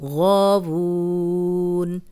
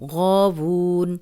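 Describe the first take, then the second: First: The vowel is held for four counts. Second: The vowel is held for two counts. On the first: "चार हरकत" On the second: "दो हरकत"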